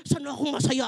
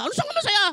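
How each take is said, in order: First: Said in the usual way. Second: High, sarcastic squeak; mock the self-centred attitude; mocking selfish question. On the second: Shown as a demonstration. Pastor mocking the selfish question, high and sarcastic. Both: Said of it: "Hindi yung".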